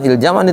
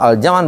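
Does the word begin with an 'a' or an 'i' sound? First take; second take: i; a. First: The word begins with an 'i' vowel. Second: The word begins with an 'a' vowel. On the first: The speaker calls it wrong. "Bukan il jam'an itu" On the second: The speaker calls it right. "itu al jam'an bacanya"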